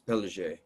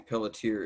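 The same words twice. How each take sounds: First: The name is said with a New Orleans pronunciation. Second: The name is said with an American pronunciation. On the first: "Unless you're from uh, New Orleans, in which case it's Pelletier" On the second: "in America we usually say pelletier"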